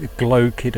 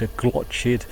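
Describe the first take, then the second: First: "glochid" said as "gloh-chid" with a soft ch; "glochid" with a soft, throaty ch sound. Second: "glochid" said as "glotch-id", ch as in church. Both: Shown as a demonstration. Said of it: "does it really matter whether".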